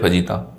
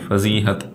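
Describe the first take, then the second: First: The word ends in 'ta' without an h sound. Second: The word ends in 'hat' with an h sound. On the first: The speaker calls it wrong. "फजीता कोई लफ्ज नहीं है" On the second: The speaker calls it right. "वो है दरअसल में फजीहत"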